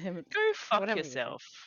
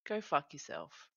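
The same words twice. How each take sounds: First: The phrase is said in a harsh tone. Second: The phrase is said in a soft tone. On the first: The speaker means it as an insult. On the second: The speaker means it kindly, like "you do you". "Just like a polite, like gentle"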